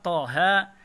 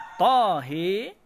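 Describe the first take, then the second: First: The vowel is a plain open 'a' sound. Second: The vowel is bent strongly toward an 'e' sound.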